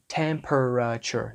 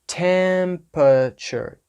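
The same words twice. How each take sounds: First: Every middle syllable is said out in full. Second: The middle syllables shrink to a short uh sound. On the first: The speaker calls it wrong. "We don't say temperature, right? Temperature. No" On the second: The speaker calls it right. "taking that middle sound and making it just an uh sound"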